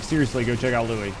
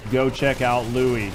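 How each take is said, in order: First: Said in the usual way. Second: "Go check out Louis" said slowly, each word weighted, stress on "check"; emphatic final repeat. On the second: Shown as a demonstration. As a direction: spell it out one last time, slow and firm. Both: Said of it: "I'll say it one more time".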